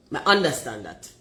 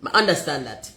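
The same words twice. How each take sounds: The two takes are said the same way.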